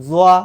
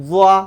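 The two takes are said the same way.

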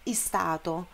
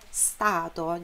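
First: A short vowel sound comes before the S. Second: The word starts directly with the S sound. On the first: The speaker calls it wrong. "não é stato" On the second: The speaker calls it right. "não é I nem E, é stato"

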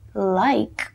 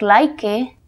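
First: The word ends on the K sound. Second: An extra vowel sound follows the final K. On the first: The speaker calls it right. "la E no tiene sonido al final" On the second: The speaker calls it wrong. "en vez de decir like"

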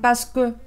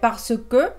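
First: The words are fused together quickly. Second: Every syllable is said in full. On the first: "cuando hablan rápido no dicen así, dicen" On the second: "Normalmente se dice"

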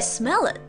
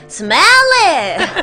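First: It is said with a standard pronunciation. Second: It is said with a strong foreign accent. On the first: "원래" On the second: "근데"

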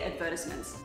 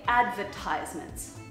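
First: It is said in the speaker's usual accent. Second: It is said the American way.

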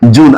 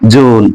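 First: The vowel in the word is short. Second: The vowel in the word is drawn out. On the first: "আমরা উচ্চারণ করি জুন" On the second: "তবে হচ্ছে টেনে বলে"

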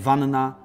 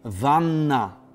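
First: Two separate n sounds are heard. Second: A single lengthened n sound is heard. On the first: The speaker calls it wrong. "a nie" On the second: The speaker calls it right. "jedno N, ale przedłużone, półtora raza"

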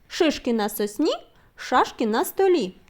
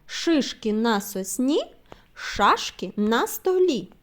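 First: The phrase is said at a very fast pace. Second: The phrase is said at a moderate pace. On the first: "І ще швидше" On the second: "Слухайте уважно"

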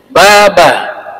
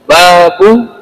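First: The word ends with an 'a' vowel. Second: The word ends with an 'u' vowel. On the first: The word is in the accusative case. "Bisa juga kita baca mansub, fathah" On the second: The word is in the nominative case. "Bisa dibaca babu bentuk marfu, dhammah"

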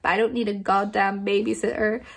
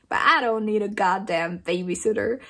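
First: It is read in the speaker's plain accent. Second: It is read in a put-on southern accent.

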